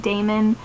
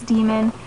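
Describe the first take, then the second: First: The first vowel sounds like 'day'. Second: The first vowel sounds like 'dee'. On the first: The speaker calls it wrong. "which I always say Damon" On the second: The speaker calls it right. "but it's demon"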